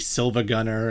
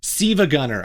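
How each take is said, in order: First: The first name is said with an L sound. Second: The first name is said without an L sound. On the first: The speaker calls it wrong. "the L is not an L" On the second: The speaker calls it right. "I think is how you're supposed to pronounce it"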